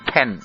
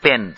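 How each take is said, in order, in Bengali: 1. প্রথম p ধ্বনিতে বাতাসের জোরালো ফুঁ থাকে। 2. প্রথম p ধ্বনিটি সাদামাটা, কোনো ফুঁ ছাড়া। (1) "ইংরেজি মুখে এই প যখন অ্যাকসেন্টেড হয় ... তা উচ্চারিত হয় এভাবে" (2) "বাঙালি মুখে প কে সরাসরি সাদামাটা অর্থে প হিসেবেই উচ্চারণ করা হয়"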